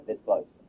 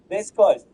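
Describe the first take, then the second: First: High laugh through the words. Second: Said in the usual way. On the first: Real, not acted. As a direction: laugh it out in disbelief. Laughing near miss.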